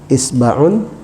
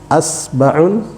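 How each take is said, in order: First: The word begins with the vowel i. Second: The word begins with the vowel a. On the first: "hamzanya dengan harakat ya kasrah" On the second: "hamzanya kita baca dengan harakat fathah"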